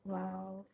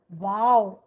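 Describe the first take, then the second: First: The word is said flatly with little energy. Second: The word is said brightly with lots of energy. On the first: The speaker calls it wrong. "eyes low. ... We never have less energy" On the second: The speaker calls it right. "You see how energy comes"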